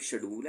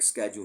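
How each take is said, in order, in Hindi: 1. यह 'sh' ध्वनि से शुरू होता है। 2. यह 'sk' ध्वनि से शुरू होता है। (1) "शेड्यूल ब्रिटिश इंग्लिश में" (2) "स्केड्यूल अमेरिकन इंग्लिश में प्रोनाउंसिएशन है"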